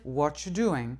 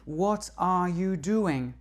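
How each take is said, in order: First: The words are compressed, dropping the are. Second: Every word is said fully and separately. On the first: The speaker calls it right. "Mais on va dire" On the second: The speaker calls it wrong. "on va pas dire"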